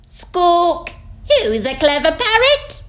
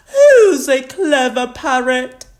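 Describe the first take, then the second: First: Very high, loud parrot mimicry; squawk, then parrot the phrase back; copying parrot. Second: High, loud cooing to a pet; doting granny. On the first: Polly copies Granny's praise, high parrot voice. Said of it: "Polly copied". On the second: Granny Pig beams at Polly, doting and high-voiced. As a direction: praise the parrot in a granny voice. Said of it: "beaming at Polly". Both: A narrator's reading.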